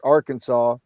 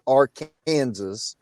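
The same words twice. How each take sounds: First: It uses the widespread, general pronunciation. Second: It uses the local Kansas pronunciation. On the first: This is how it is said outside Kansas. "in the rest of the world, you pronounce the, the the word Arkansas" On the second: This is how it is said inside Kansas. "if you live in the state of Kansas, you pronounce it Arkansas"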